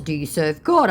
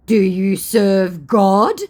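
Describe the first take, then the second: First: Said in the usual way. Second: Very slow, loud, higher put-on voice; mock pious challenge. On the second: Scammer challenging her about serving God, slow mock solemnity. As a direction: intone it grandly as the scammer.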